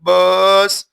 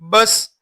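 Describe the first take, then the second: First: The vowel is drawn out long. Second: The vowel is short and quick. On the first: The speaker calls it wrong. "इस तरह खींच कर नहीं" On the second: The speaker calls it right. "जल्दी बस"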